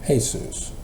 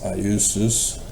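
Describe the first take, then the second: First: The name begins with an H sound. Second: The name begins with a Y sound. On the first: "Spanish turns it into H" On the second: "it's Iusus from the Greek"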